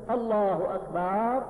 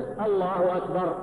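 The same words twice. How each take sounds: First: الله أكبر slowly, ending "akbaaar"; faulty takbir, أكبر as "akbaaar"; long vowel after ba. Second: الله أكبر with short first A and short "bar"; "Allahu akbar", brief final vowel in أكبر; correct takbir. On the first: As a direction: stretch the final A of أكبر. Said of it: "أو مددت ال-، الباء". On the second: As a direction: model الله أكبر cleanly, no stretch on أكبر. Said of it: "لازم تقول". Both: Shown as a demonstration.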